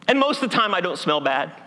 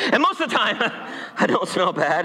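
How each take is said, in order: First: Said in the usual way. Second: Laughing through the line. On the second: Shown as a demonstration. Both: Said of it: "You should have laughed louder at that".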